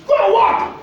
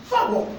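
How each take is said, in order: First: High cry. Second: Soft laugh. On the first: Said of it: "repeated command, preacher emphasis". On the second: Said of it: "repeated, softer with a laugh". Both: Real, not acted.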